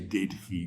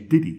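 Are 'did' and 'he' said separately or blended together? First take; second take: separately; blended. First: The two words are said separately and fully. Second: The two words are fused into one reduced sound. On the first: The speaker calls it wrong. "We don't say" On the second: The speaker calls it right. "We say"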